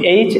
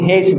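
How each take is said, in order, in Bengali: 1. এটি সরাসরি স্বরধ্বনি দিয়ে শুরু হয়। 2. এটি h ধ্বনি দিয়ে শুরু হয়। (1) "এইচ এবং হেইচ বোথ আর রাইট" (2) "এইচ এবং হেইচ বোথ আর রাইট"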